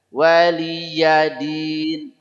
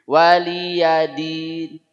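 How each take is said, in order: First: The y sound is clearly pronounced. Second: The y sound is replaced by a plain a. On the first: The speaker calls it right. "Huruf ya betul-betul nampak" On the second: The speaker calls it wrong. "banyak bacanya waliya pakai a"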